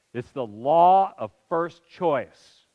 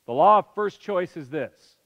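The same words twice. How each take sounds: First: Law of first choice drawn out slow, LAW stressed; solemn slow statement of the rule; slow emphatic stress. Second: Said in the usual way. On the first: Shown as a demonstration. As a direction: lay out "law of first choice" slowly, weighting law.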